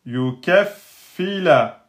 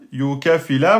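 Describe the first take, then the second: First: Yukaffila slow, holding the ff; doubled f. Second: Yukafila with one short f, no doubling; wrong, single f. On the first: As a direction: block on the fa in Yukaffila. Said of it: "on va bloquer sur le fa". (Yukaffila lent, en appuyant sur le fa doublé) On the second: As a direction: say yukafila all in one beat. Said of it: "Si vous dites yukafila". (yukafila prononcé faux, sans shidda) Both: Shown as a demonstration.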